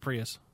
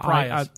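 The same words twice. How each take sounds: First: Prius is pronounced the American way. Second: Prius is pronounced the British way. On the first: The speaker calls it right. "It's a Prius. Well, this is America, son" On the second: The speaker calls it wrong. "Not Prius"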